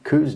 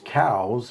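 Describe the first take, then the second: First: The word does not sound like 'cows'. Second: The word sounds like 'cows'. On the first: This is the name most people use. "nobody calls them cows" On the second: This is the original form of the name. "the proper pronunciation is cows"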